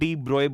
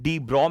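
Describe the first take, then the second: First: The surname ends in a 'broy' sound. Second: The surname is said short, ending in 'bro'. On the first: This is how the name is actually said. "Actual में डी ब्रोए बोला जाता है" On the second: This is the form the speaker uses himself. "डी ब्रॉ मैं बोल रहा हूं"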